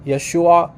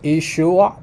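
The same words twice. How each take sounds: First: Yeshua with an opening "yeh" sound; variant pronunciation. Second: Yeshua with an opening "ee" sound; variant pronunciation. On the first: Commentator contrasting two Aramaic dialect forms, Yeshua begun with "yeh". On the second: Commentator contrasting two Aramaic dialect forms, Yeshua begun with "ee". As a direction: say Yeshua as "ee-SHOO-a", no Y glide. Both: Shown as a demonstration. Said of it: "minor difference in how they pronounce".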